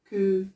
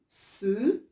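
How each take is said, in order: First: It begins with a hard K sound. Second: It begins with a soft S sound. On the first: The speaker calls it wrong. "ما كنقولش" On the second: The speaker calls it right. "Je dis ce"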